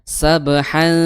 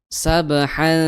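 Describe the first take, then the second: Both takes have the same delivery.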